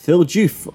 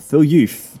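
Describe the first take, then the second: First: The surname begins with a J sound. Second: The surname begins with a Y sound.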